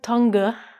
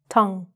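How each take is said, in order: First: The word ends with an added vowel sound. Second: The word ends on the ng sound. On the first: The speaker calls it wrong. "It looks like tonga" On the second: The speaker calls it right. "but it's actually just tong"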